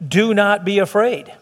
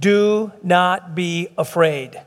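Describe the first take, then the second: First: Measured, somewhat slow quotation; measured quote. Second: Very slow, word by word; slow, deliberate emphasis. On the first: Retold or imitated. Preacher quoting the angel to the congregation, measured. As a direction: quote the command in an even, unhurried way. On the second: Shown as a demonstration. Preacher driving home Scripture's command to God's people, slow and deliberate. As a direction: draw out DO, NOT, BE, AFRAID separately.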